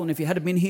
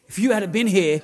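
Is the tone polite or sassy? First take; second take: polite; sassy. First: It is said in a mild, polite tone. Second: It is said in a sassy, angry tone.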